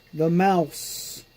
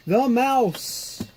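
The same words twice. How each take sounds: First: Said in the usual way. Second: "mouse" said higher with a falling, delighted note; excited. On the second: Real, not acted. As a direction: raise "The mouse" up high, then let it fall. Repeats spotting the mouse.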